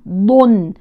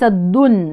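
First: The consonant is the heavy emphatic dad sound. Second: The consonant is a light plain dal sound. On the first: The speaker calls it right. "ضن وليس الدن" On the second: The speaker calls it wrong. "وليس الدن"

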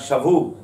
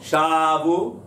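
First: The stress is on the last syllable. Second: The stress is on the first syllable. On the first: They took captives. The speaker calls it right. "אלא שבו, מלרע" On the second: They returned. The speaker calls it wrong. "לא שבו, חזרו"

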